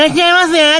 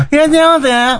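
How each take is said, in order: First: High, odd shop-clerk greeting; bright loud shop welcome. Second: High, odd shop-clerk greeting; squeaky clerk welcome; bright loud shop welcome. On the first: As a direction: chirp a strange high welcome. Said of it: "変な高い声で". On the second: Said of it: "変な高い声なの". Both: Retold or imitated.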